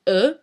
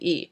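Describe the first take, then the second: First: The letter is said with a French vowel. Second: The letter is said with an English vowel. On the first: The speaker calls it right. "the correct pronunciation for E is E" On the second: The speaker calls it wrong. "when someone who speaks English... they want to say E"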